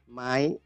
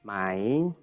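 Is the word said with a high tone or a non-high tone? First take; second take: high; non-high. First: The word is said with a high tone. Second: The word is said without a high tone. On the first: It is the informal question word. "nada tinggi" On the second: It is the formal question word. "yang pertama kalau tadi formal itu mai"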